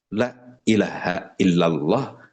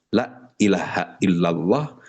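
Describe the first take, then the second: First: The vowel in 'la' is cut short. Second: The vowel in 'la' is cut short.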